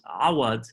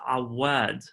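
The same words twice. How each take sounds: First: The w sound is short and single. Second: The w sound is held long and doubled. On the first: The speaker calls it wrong. "I mispronounced Doctor Rania's last name" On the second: The speaker calls it right. "there's a shadda on the wow"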